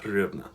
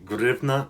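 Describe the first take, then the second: First: The word begins with an H sound. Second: The word begins with a G sound. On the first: The speaker calls it wrong. "not hryvnia" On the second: The speaker calls it right. "the H is a G sound in Ukrainian"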